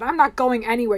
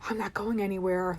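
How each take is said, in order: First: It is said in a firm, defiant way. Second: It is said in a low, resigned way. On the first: Nothing will stop the goal. "You're not going to stop me" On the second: Life is not progressing. "like the realization I'm not going anywhere in life"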